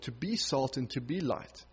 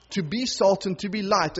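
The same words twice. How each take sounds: First: Softer, dropping away, a question to oneself; a hushed question put to the listeners; quiet reflection. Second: A rallying call to the congregation; emphatic preaching. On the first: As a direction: let it sink in gently. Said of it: "reflective repeat of phrase". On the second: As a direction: proclaim it to the church. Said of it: "preaching the call to mission". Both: Acted.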